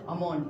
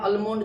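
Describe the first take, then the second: First: No L sound is pronounced in the word. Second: An L sound is pronounced in the word. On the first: The speaker calls it right. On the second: The speaker calls it wrong.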